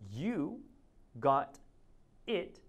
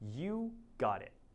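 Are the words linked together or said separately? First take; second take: separate; linked. First: The words are said separately, not joined. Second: The words are joined smoothly into one unit.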